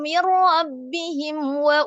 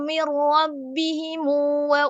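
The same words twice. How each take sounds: First: The m ends with no vowel after it. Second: The m is followed by a short u vowel. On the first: "sukun mim jama'" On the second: "sila mim jama'"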